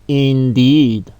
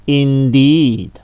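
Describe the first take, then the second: The two takes are said the same way.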